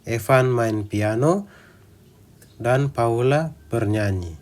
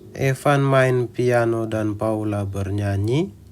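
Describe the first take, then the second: First: The pitch rises, stays level, then falls. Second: The pitch goes up like a question. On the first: It states two facts. The speaker calls it right. "Naik, datar, lalu turun" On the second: It asks a question. The speaker calls it wrong. "itu intonasinya menjadi intonasi untuk kalimat tanya"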